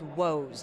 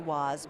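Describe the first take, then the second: First: The vowel sounds like the one in 'go'. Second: The vowel sounds like the one in 'hot'. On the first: This is the name's correct pronunciation. The speaker calls it right. "but it's Woes" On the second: This is how many people commonly say it. The speaker calls it wrong. "a lot of people say Woz"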